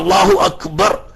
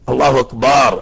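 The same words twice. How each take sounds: First: The vowel after the b is short. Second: The vowel after the b is drawn out long. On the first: God is the greatest. The speaker calls it right. "അല്ലാഹു അക്ബർ എന്ന് പറയേണ്ടയിടത്ത്" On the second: It names a big drum instead. The speaker calls it wrong. "ബാഗിനെയാണ് നീട്ടി"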